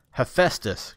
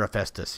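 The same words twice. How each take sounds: First: Name called out loud and fierce; angry summons of a lagging god; fierce cry. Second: Said in the usual way. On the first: A narrator's reading. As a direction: bark the name at him. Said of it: "cried Kratos fiercely". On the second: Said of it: "he cried".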